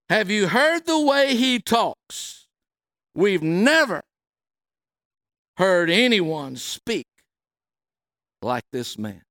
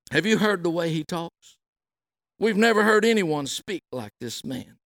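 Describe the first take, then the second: First: Higher, slow and deliberate, dropping at the end; emphatic, slow. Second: Said in the usual way. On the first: Shown as a demonstration. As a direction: dwell on every word, in awe. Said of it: "I want to focus on". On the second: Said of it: "the police answered".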